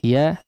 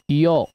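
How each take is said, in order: First: The vowel is a full open a. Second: The vowel is a rounded o. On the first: The speaker calls it right. "fathahkan dengan sempurna huruf ya-nya" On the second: The speaker calls it wrong.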